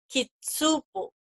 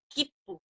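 First: A full tsu syllable is said before the p. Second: A held doubled p is said with no tsu. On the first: The speaker calls it wrong. "no es kitsupo" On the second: The speaker calls it right. "como si pronunciáramos la doble P"

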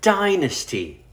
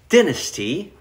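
First: It is said with American pronunciation. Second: It is said with British pronunciation.

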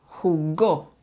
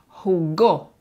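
First: The stress is on the last syllable. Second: The stress is on the last syllable.

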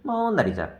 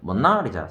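First: The stress is on the first syllable. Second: The stress is on the second syllable. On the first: "이름절의 강세가 있으면" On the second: "이음절은"

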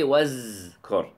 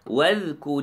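First: The middle consonant is a z sound. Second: The middle consonant is a voiced th sound. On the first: The speaker calls it wrong. "we don't say wazkur" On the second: The speaker calls it right. "Wadhkur is"

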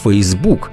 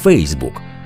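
First: The stress is on the second syllable. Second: The stress is on the first syllable. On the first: "нині підтримують наголос на другому складі – Фейсбук" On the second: "наголошувати потрібно на першому складі – Фейсбук"

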